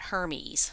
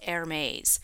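First: The name gets an anglicized pronunciation. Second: The name gets its international pronunciation. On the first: The speaker calls it wrong. "not Hermes" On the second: The speaker calls it right. "this is pronounced Hermes"

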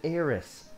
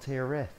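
First: The name ends with an s sound. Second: The name ends with a th sound. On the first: "I said Aeris" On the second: "not Aerith"

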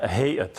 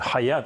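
First: It starts with a soft h, then 'eyat'. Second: It starts with a harsh kh, then 'ayat'. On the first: The speaker calls it right. "а Гейат" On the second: The speaker calls it wrong. "я зараз виправляю неправильно, вимовляють цю назву, не Хаят"

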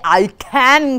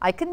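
First: The word can is full and heavily stressed. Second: The word can is weak and barely heard. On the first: The speaker calls it wrong. "you don't say I can kiyala nikan barra karagena can ekata yanne" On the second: The speaker calls it right. "Etoda can ekak samaharata ahennet naha wage kiyana"

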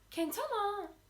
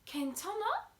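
First: The voice falls at the end. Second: The voice rises at the end. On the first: It states that things are okay. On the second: It asks whether someone is okay. "iyi misin?"

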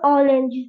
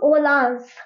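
First: It is pronounced the English way. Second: It is pronounced the German way. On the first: The speaker calls it wrong. "you don't tell some German orange" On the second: The speaker calls it right. "you tell some orange but in pronounce some different"

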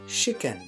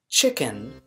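First: The word begins with a sh sound. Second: The word begins with a ch sound. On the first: "sounds more like" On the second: "chicken with the ch sound"

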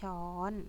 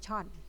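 First: It is said in a standard Central Thai accent. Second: It is said short, in a Southern Thai accent. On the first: "ภาคกลางใช้คำว่าช้อน, คือภาษาไทยมาตรฐาน" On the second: "ภาคใต้ใช้คำว่าช่อน, จะสั้นๆ"

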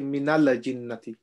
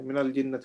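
First: The lam is released with a bouncing echo. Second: The lam is held still without a bounce. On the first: The speaker calls it wrong. "If we say minala, it becomes like a qalqala" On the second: The speaker calls it right. "We don't bounce our voice in a sakin"

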